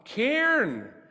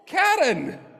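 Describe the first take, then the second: First: The name is squeezed into one syllable, like cairn. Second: The name is said in two syllables. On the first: This is how locals heard and said the name. The speaker calls it wrong. "And they'd go, ah, Cairn" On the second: This is how the couple said the name. The speaker calls it right. "You're like, no, Karen"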